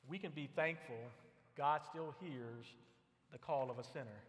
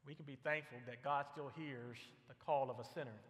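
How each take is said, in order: First: "God still hears" drawn out slowly, each word weighted; slow emphatic statement. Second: Said in the usual way. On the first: Shown as a demonstration. Preacher stressing God's faithfulness to the congregation, slowly and emphatically. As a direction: lean on "God" and slow right down.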